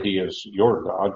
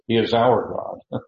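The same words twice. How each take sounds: First: Said in the usual way. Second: "our" lifted and slowed to set it against "your"; stress on our. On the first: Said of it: "And so they didn't say". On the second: Shown as a demonstration. Pastor correcting the text's wording, stressing "our". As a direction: lean on "our" a little higher and slower. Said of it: "They said".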